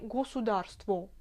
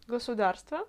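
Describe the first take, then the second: First: The final unstressed vowel sounds like 'o'. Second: The final unstressed vowel sounds like 'a'. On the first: This is the accent of other cities such as Kostroma. "à Kostroma, on prononce tous les O comme les O. Ça va donner государство" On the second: This is the Moscow accent. "je le prononce toujours comme le A. ... c'est l'accent de Moscou"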